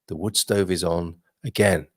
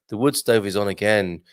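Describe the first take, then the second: First: It is read at a slower, calmer pace. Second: It is read at a quicker, less calm pace.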